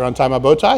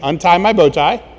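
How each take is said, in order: First: It is said quickly. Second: It is said at a normal pace.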